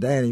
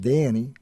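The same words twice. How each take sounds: First: The vowel is a plain short a. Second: The vowel is shifted in the Southern way. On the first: "the A in Danny" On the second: "becomes Danny"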